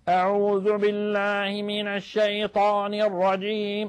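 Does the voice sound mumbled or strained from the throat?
throat-strained. It sounds strained, pressed from the back of the throat.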